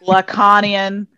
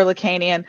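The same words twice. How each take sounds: First: Lacanian slowly as luh-KAH-nee-un; alternative pronunciation. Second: Lacanian as luh-KAY-nee-un; long "kay" in the middle of Lacanian; American pronunciation. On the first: Host trying the less ridiculous version, Lacanian as luh-KAH-nee-un. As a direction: open "ah" in the middle of Lacanian. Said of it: "is slightly less ridiculous". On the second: Host offering the American version, Lacanian as luh-KAY-nee-un. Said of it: "that's how we say it". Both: Shown as a demonstration.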